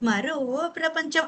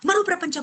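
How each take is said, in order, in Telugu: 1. సాదాగా, ప్రశాంతంగా చెప్పారు. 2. గట్టిగా, అత్యవసరంగా చెప్పారు. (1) "మరో ప్రపంచం అనలేదాయన"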